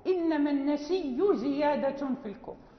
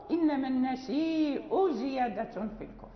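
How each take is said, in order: First: النسي read as nasiyyu, no glottal stop, doubled ya; Warsh reading without hamza. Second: النسيء read as nasi'u, glottal stop after the long i; Hafs reading with hamza. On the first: Teacher reciting Warsh's reading: النسي with no hamza, doubled ya. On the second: Teacher reciting Hafs's reading: النسيء with a clear hamza. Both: Shown as a demonstration. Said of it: "ويقرأ".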